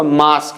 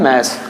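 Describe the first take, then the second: First: "मास" said as "maas", with a long open aa; "मास" the popular way, "maas"; common mispronunciation. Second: "मास" said as "mass", with a front a; low, clear "mass" for "मास"; correct English pronunciation. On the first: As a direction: say "मास" with the vowel of "father". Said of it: "normally लोग इसको मास कहते हैं". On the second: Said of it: "इसका pronunciation क्या है?". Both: Shown as a demonstration.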